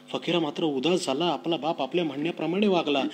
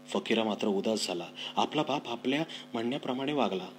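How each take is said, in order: First: More expressive reread. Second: Said in the usual way. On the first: Shown as a demonstration. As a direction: give the line more life. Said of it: "reread with more feeling". (अधिक भावपूर्ण, उंच आणि मोठ्या आवाजात) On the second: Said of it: "first plain read".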